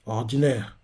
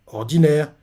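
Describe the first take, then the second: First: Lower, softer flat verdict; a clipped dismissive one-word judgment; curt dismissal. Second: Repeating the word, back at normal level; a confused repeat of someone else's word; puzzled echo. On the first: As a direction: drop it coldly, one word, end of topic. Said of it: "Et Rishi fait". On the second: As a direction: echo it as if not getting the meaning. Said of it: "Shobunkun ne comprend pas". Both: Retold or imitated.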